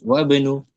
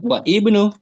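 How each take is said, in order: First: The i vowel is dropped, linking wa to bnu. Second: The i vowel is pronounced separately after wa. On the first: The speaker calls it right. "Nah, gitu. Wa benu" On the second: The speaker calls it wrong. "tidak wa ibnu"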